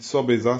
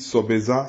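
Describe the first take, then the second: First: Sobeza said level, with no rise and no fall, still wrong; another wrong tone on sobeza. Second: Sobeza with a rising tune at the end, the wrong way. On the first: Teacher shows another wrong tone on sobeza. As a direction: keep sobeza level, no clear tune. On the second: Teacher demonstrates the wrong tone on sobeza. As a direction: say sobeza with the pitch going up at the end. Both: Shown as a demonstration. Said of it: "c'est pas bon".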